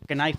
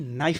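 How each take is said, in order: First: The word begins with a k sound. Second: The word begins with an n sound. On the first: The speaker calls it wrong. "इसीलिए हम इसको के नाइफ नहीं" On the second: The speaker calls it right. "नाइफ बोलते हैं"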